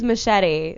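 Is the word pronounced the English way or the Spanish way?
English. It is pronounced the English way. "It is Machete, like, In, you know, English"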